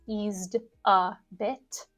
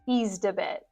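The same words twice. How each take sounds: First: Each consonant is pronounced clearly and separately. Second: The words run together with a dropped final T. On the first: The speaker calls it wrong. "emphasize each or pronounce clearly each consonant" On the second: The speaker calls it right. "All of those sounds allied together"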